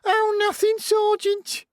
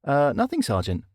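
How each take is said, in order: First: Very high, sneering parody; mocking falsetto. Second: Said in the usual way. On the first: A narrator's reading. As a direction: mimic him in a squeaky falsetto. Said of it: "parodied Scarlett in a high falsetto". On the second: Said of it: "parodied Scarlett".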